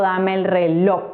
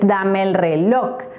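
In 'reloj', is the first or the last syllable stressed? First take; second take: first; last. First: The stress in reloj is on the first syllable. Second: The stress in reloj is on the last syllable. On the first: The speaker calls it wrong. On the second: The speaker calls it right.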